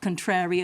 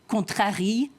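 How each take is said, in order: First: It is said with a native English accent. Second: It is said with a heavy French accent.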